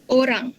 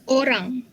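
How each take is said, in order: No difference in how they are said.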